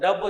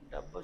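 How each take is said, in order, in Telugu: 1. ఈ పదాన్ని బిగ్గరగా, ధైర్యంగా అంటారు. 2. ఈ పదాన్ని మెల్లగా, భయపడుతూ అంటారు. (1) "దాన్ని మెల్లిగా చెప్పను" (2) "ఇప్పుడు మెల్లిగా చెప్తారు"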